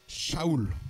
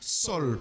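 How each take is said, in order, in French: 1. Ça commence par le son ch, puis 'a-oul'. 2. C'est une syllabe avec s et un 'o'. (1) "son vrai nom, c'est. Euh, c'est. Euh, Shaoul" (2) "on prononce aussi Sol, parce que A U, ça fait O"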